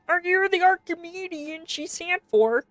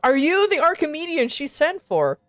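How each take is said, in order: First: It is said in a Kermit voice. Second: It is said in a normal voice.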